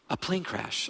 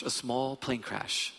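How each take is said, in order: First: Said in the usual way. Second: Small stressed and the whole line slowed; slow down and lean on small. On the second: Real, not acted.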